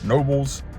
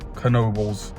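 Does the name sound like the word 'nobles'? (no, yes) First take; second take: yes; no. First: The name sounds like the word 'nobles'. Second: The name does not sound like 'nobles'. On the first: The speaker calls it wrong. "I was saying it wrong incorrectly" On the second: The speaker calls it right. "but it's apparently Knoebels"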